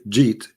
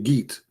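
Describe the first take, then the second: First: It begins with a soft j sound. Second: It begins with a hard Egyptian g sound.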